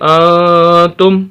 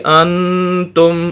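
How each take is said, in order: First: The n sound is hidden, not pronounced clearly. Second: The n sound is pronounced clearly. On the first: The speaker calls it right. "नून की आवाज़ क्लियर नहीं हो रही" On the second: The speaker calls it wrong. "नून की आवाज़ आएगी क्लियर"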